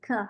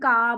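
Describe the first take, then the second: First: The consonant is said light and soft. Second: The consonant is said hard and firm. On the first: "ख हल्का-सा" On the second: "एकदम का बोलते थे"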